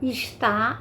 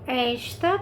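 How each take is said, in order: First: The stress is on the last syllable. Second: The stress is on the first syllable. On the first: It means 'is', a verb. "é a última sílaba mais forte" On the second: It means 'this', a demonstrative. "primeira sílaba, que é a mais forte"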